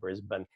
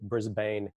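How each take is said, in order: First: The last syllable is reduced, Australian-style. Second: The last syllable sounds like 'bane', American-style.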